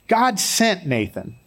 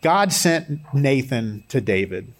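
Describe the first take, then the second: First: Slow, higher "God" leading the phrase; stress on God. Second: Said in the usual way. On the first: Shown as a demonstration. Preacher drives home that God sent him, stressing "God". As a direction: lift and lean on "God" slowly.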